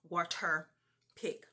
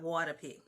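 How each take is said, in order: First: The stop consonants are pronounced crisply and fully. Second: The stop consonants are softened and less distinct. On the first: The speaker calls it right. "Let me pronounce my fricatives and stops" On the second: The speaker calls it wrong.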